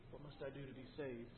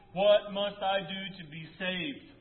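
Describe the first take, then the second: First: Much softer, almost to himself; hushed question. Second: Louder, slow, pleading question; pleading cry. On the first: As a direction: let it fall away, hushed. Jailer's question, repeated softly. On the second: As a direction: drag the plea out, pressing each word. Jailer's plea, preached aloud. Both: Acted.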